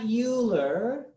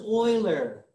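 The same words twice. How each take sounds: First: The name is pronounced a non-German way. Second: The name is pronounced the German way. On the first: The speaker calls it wrong. "not Euler" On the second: The speaker calls it right. "The German enunciation is Euler"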